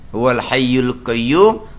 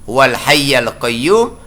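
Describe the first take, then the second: First: The word hayy ends with a u vowel. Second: The word hayy ends with an a vowel. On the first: "al hayya salah" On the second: "al hayyu salah"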